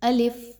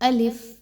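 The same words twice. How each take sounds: The two takes are said the same way.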